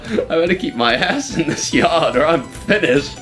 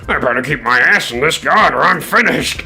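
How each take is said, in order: First: It is read in the speaker's normal voice. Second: It is read in Diesel's character voice.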